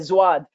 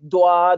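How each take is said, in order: First: It begins with a z-like sound. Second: It begins with a plain, light d sound. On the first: "some people say zwad" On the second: "Some people make it like sound like a dal"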